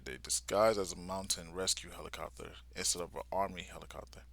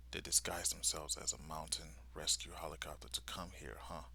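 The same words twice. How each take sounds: First: Said in the usual way. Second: Whispered, much softer musing; inner thought. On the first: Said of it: "Okay, so that's how". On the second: Retold or imitated. Soldier realising their disguise, whispered thought. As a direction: whisper it to yourself. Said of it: "he's thinking to himself".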